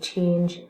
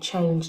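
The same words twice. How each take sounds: First: The vowel stays steady, as a monophthong. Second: The vowel glides, as a diphthong. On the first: "they use monophthongs as well" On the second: "instead of saying"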